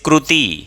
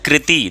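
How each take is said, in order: First: The vowel after r sounds like 'u'. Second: The vowel after r sounds like 'i'. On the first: This is the Maharashtra and Gujarat pronunciation. "they say" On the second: This is the common Hindi pronunciation. "like we say"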